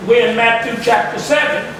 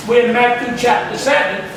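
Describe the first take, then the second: No difference in how they are said.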